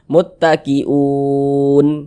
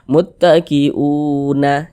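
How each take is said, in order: First: The word ends on a bare n sound. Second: The word ends with a vowel after n. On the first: The speaker calls it right. "Sukunkan, matikan huruf nunnya" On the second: The speaker calls it wrong. "Jangan dibaca muttaqiuna, jangan, salah"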